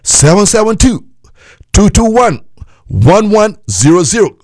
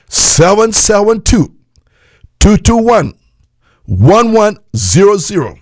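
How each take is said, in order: First: The number is said at normal speed. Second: The number is said more slowly.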